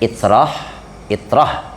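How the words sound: The word begins with an 'i' sound. This is how Banjar clerics recite it. "kalau ulama Banjar"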